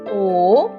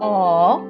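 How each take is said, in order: First: The vowel sound is long, like the letter name. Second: The vowel sound is short and clipped. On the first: "Let's say the long vowel sounds first" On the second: "let's say the short vowel sounds"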